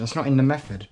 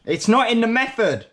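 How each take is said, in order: First: Said in the usual way. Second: High, loud frustrated cry with NOT punched; louder, higher second take of the same complaint; exasperated outburst. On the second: Real, not acted. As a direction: throw your hands up at the recipe.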